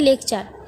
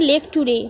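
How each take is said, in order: First: The ending is said as 'cher'. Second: The ending is said as 'too-reh'. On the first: The speaker calls it right. "মানে লেকচার" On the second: The speaker calls it wrong. "একজনও ভালো করে লেকটুরে"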